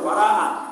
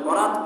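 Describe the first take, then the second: First: The middle vowel is drawn out and doubled. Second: The middle vowel is short and single. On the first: The word means freedom. The speaker calls it right. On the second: The word means marriage. The speaker calls it wrong.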